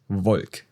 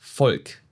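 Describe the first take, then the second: First: It starts with a V sound. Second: It starts with an F sound. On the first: The speaker calls it wrong. "not das Volk" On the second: The speaker calls it right. "You pronounce it like an F"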